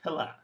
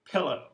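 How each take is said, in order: First: "pilla" ending in a reduced uh; wrong schwa version. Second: "Pillow" ending in a full oh; the right unreduced ending; correct ending. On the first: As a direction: close "pilla" on a lazy schwa. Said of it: "this should be". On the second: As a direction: finish "Pillow" on a clear round oh. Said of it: "The same thing". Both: Shown as a demonstration.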